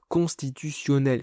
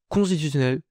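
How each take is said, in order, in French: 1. Le mot est bien articulé, syllabe par syllabe. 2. Le mot est avalé et difficile à comprendre. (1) "faudrait que je le dise comme ça, mais ce serait vraiment très désagréable à entendre" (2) "j'arrête pas de le dire comme ça, constitutionnel, on comprend rien"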